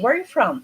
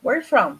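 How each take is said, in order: First: The R sounds are softened and reduced. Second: The same.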